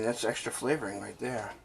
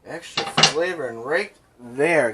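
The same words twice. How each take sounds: First: Said in the usual way. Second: Slow, savoured "flavoring right there"; drawn-out emphasis. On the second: Real, not acted. Repeats it for emphasis.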